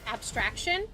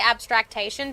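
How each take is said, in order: First: The word has three syllables, no extra one. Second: The word has an extra syllable, four in all. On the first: The speaker calls it right. "It's abstraction" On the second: The speaker calls it wrong. "but that's not how you say it"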